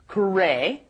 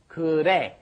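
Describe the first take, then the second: First: The middle consonant is a clear R or L. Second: The middle consonant sounds almost like a D. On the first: The speaker calls it wrong. "make sure that you're not doing 그래" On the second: The speaker calls it right. "It's almost a D sound"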